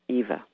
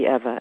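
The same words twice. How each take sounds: First: The first vowel differs from the one in 'ever'. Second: The first vowel sounds like the one in 'ever'. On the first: The speaker calls it wrong. "and not Eva" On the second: The speaker calls it right. "it is like forever"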